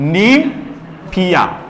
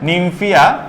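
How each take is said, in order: First: The word is broken into separate parts. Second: The word is said smoothly without a break.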